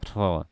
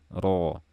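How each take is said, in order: First: An audible stream of breath accompanies the syllable. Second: The syllable is fully voiced with no breath noise. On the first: The speaker calls it wrong. "jangan dilafalkan dan terdengar suara aliran nafas" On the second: The speaker calls it right.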